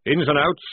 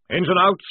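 First: Louder parade-ground call; sergeant's call. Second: Higher, louder eager call; lieutenant's borrowed drill call; officer copying the call. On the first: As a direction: bark the squad to order. Sergeant calls squad. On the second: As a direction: mimic the sergeant's order. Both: A narrator's reading.

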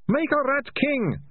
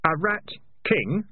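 First: Very high, drawn-out confession; bursting out. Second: Slower, higher, rising query; sharp question. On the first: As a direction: blurt it out in a panicked high wail. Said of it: "Ratcatcher two burst out". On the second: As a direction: seize on the words with a questioning rise. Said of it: "said Keith sharply". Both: A narrator's reading.

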